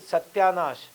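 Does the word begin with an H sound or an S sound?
S sound. The word begins with an S sound. "they will not say Satyanash"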